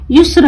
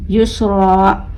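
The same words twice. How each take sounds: First: युस्र stopped short on the R, no final aa; cut-off ending. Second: युसरा slow, with a long open aa at the end; long alif ending. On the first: Teacher warning pupils with युस्र, ending cut short without aa. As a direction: say युस्र quickly, dropping the long vowel. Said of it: "युस्र नहीं पढ़ना है". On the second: Teacher answering what to read, युसरा with long held ending. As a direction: stretch the final aa of युसरा. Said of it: "क्या पढ़ना है?". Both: Shown as a demonstration.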